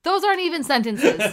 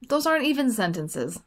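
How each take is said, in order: First: It is said loudly. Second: It is said softly.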